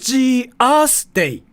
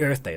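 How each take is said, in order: First: Earth is said like 'Gias', Japanese-style. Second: Earth is said with its usual English sounds.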